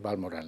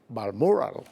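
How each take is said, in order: First: It is said with a Spanish pronunciation. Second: It is said with a Scottish English pronunciation. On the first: This is how it is said in Spanish. "en español pues es Balmoral" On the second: This is how people in Scotland say it. "En Escocia dicen Balmoral"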